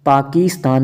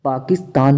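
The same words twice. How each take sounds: First: पाकिस्तान with a stretched "kees"; long ee. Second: पाकिस्तान with a quick "kis"; short i. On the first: Teacher saying what it isn't, long ee in पाकिस्तान. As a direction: say पाकिस्तान as "paakeestaan". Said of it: "पाकिस्तान नहीं". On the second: Teacher giving the correct form, short i in पाकिस्तान. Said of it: "होता है". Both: Shown as a demonstration.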